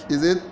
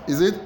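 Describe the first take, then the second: The two takes are said the same way.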